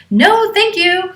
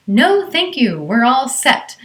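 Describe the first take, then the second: First: Much higher, louder, slow, dead-firm no; firm refusal. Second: Firm, raised no-nonsense refusal. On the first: Mother refusing the stranger at the door, firm and loud. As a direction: refuse him firmly and slowly. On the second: Mother to stranger offering help, firm higher refusal. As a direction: shut him down firmly. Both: Retold or imitated. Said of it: "says in a very firm voice".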